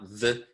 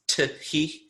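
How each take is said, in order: First: T and H blend into one th sound. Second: T and H are pronounced as separate sounds. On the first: "so it's not the" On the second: "if you have T H E but you pronounce the H"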